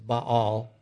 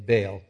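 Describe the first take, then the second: First: The word does not rhyme with bail. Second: The word rhymes with bail. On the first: "Some people pronounce that idol as Baal" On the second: "It's easier for me to say Baal, because if Baal comes around, you need to bail"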